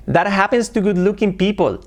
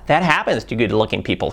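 First: Said in the usual way. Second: That happens to good looking people with Spanish vowels, hapens, pipol; Spanish accent. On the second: Shown as a demonstration. Teacher imitates the Spanish-accented version. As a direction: say it like a Spanish speaker. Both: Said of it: "Cambia mucho de decir".

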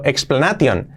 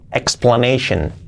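First: "explanation" as ex-pla-na-TION; hard t in "explanation"; wrong Spanish reading. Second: "explanation" as ex-pla-NEI-shen; falling "explanation" with sh; correct pronunciation. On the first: Teacher reads the spelling: "explanation" as ex-pla-na-tion. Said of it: "no decir es explanation". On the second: Teacher models for learners: "explanation" as ex-pla-NEI-shen. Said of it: "shen, explanation". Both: Shown as a demonstration.

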